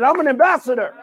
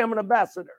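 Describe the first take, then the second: First: Raised, emphatic declaration; like meaning it. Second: Said in the usual way. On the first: Shown as a demonstration. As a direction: declare it with real conviction. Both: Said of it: "someone say it like you mean it".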